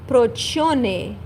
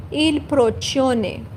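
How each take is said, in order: First: Italian word "procione" said clearly. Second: "Il procione" repeated slowly, il pro-CHO-ne; slow careful repeat of "Il procione"; Italian il procione. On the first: Teacher models the Italian word for students, carefully. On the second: Teacher repeats the word slowly for learners to copy. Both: Shown as a demonstration. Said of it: "we say".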